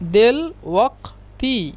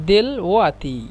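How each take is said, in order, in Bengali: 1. 't'-এর আগে পেছনের 'q' ধ্বনি শোনা যায়। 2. 't'-এর আগের 'q'-এর জায়গায় হামজা হয়।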